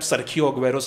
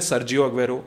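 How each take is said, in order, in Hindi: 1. Sergio के बीच में कड़ी 'kh' ध्वनि है। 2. Sergio के बीच में नरम 'j' ध्वनि है। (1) "सबको पता है सरखियो अग्वेरो सारे बोलते हैं" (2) "कुछ लोग बोलते होंगे सर्जियो अग्वेरो"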